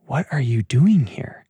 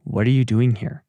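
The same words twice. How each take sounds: First: Whispered, accusing question; still small voice. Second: A mild stern, disappointed God asking. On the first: Still small voice whispering to Elijah, accusing. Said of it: "the still small voice comes in with the accusation". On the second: God asking Elijah, lightly stern and disappointed. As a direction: let the question land as a letdown. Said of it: "read that with that tone of voice". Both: Pretend.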